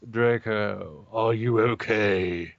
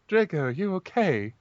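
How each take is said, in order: First: It is said in a put-on gothic voice. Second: It is read in a plain voice.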